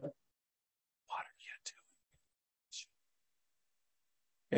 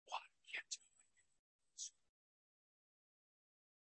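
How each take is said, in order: First: Slow hushed whisper; a still small whispered voice. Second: Breathy hushed whisper; soft whispered question. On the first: Acted. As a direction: barely breathe the question. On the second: Shown as a demonstration. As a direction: whisper it like a voice in the night. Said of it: "I think it was just like that".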